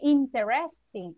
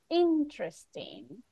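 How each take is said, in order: First: The E after the t is pronounced. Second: The E after the t is silent. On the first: The speaker calls it wrong. "We cannot say interesting" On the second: The speaker calls it right. "Imagine that this E is mute"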